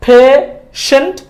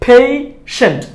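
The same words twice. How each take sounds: First: High, slow "phe... shent" for পেশেন্ট; long plain e in পেশেন্ট; wrong pronunciation. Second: High, falling "phei... sent" for পেশেন্ট; correct pronunciation. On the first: Teacher contrasting for learners, high rising পেশেন্ট with plain e. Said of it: "ভুলটা". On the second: Teacher closing the drill, falling পেশেন্ট with ei. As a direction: glide e to i in পেশেন্ট. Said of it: "সঠিকটা". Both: Shown as a demonstration.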